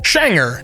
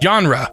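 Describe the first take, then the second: First: It departs from Swedish spelling-to-sound rules. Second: It follows Swedish spelling-to-sound rules. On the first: The speaker calls it right. "it's actually pronounced shanger, which is totally unrelated to the spelling" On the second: The speaker calls it wrong. "the spelling would imply that it's pronounced genre"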